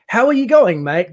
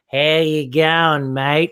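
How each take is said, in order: First: Australian greeting. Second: Slow, slurred Australian "How you going, mate"; slowed drunk Australian accent. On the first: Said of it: "So when you think about it". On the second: Explaining the accent's origin, in a slow drunk Australian drawl. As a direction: drag the Australian greeting out like a drunk. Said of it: "a slowed version of it". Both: Shown as a demonstration.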